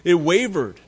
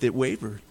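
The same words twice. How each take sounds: First: Said in the usual way. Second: "it wavered." dropped lower and softer; quiet, low aside. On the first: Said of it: "Their belief". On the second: Shown as a demonstration. Preacher to congregation, "it wavered." said low and soft. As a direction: let "it wavered." fall away quietly. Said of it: "Abraham and Sarah's faith".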